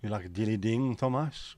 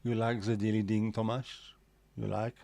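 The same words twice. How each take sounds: First: Slight, unintended French accent. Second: Put-on French accent, "the" said as "ze". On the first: Real, not acted. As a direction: let a hint of French accent slip in. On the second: Shown as a demonstration. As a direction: play up the French accent on purpose. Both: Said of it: "read that in a French accent".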